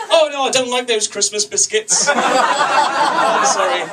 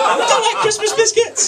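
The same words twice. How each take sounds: First: High, mock-fussy refusal; clueless expat. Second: Very high, loud hammed-up yell; mock fury. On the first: Clueless expat misunderstands, mimicked. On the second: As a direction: scream it in comic outrage. Same line yelled in mock fury.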